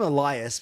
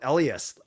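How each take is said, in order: First: The name does not sound like L-E-S. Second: The name sounds like the letters L-E-S. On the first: "that didn't sound right" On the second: "as in L E S"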